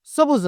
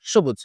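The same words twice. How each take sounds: First: সবুজ said 'sobuj' with a hissed dental s; quick সবুজ with s in place of sh; wrong s pronunciation. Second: সবুজ said 'shobuj', falling low; sh, not s, opening সবুজ; correct sh pronunciation. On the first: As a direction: show the mistaken s opening of সবুজ. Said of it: "সবুজ না". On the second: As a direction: model সবুজ with a palatal sh. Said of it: "এই উচ্চারণটার নাম হচ্ছে". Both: Shown as a demonstration.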